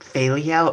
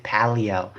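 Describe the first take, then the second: First: "phallio" begun with an F, like "fail-ee-oh"; unsure pronunciation. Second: "paleo" begun with a P, like "pal-ee-oh"; alternative pronunciation. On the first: Vlogger puzzling over a surgery term, "phallio" with an F sound. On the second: Vlogger testing another way to say it, "paleo" with a P sound. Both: Shown as a demonstration. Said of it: "I can't even pronounce it".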